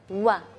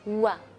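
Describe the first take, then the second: The two takes are said the same way.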